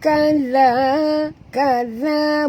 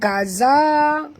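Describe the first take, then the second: First: The middle consonant is a soft 'th' sound. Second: The middle consonant is a harsh buzzing 'z'. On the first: The speaker calls it right. "kena baca lembut kerana zal makhrajnya di hujung lidah" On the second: The speaker calls it wrong. "Itu kasar bunyi itu huruf zai"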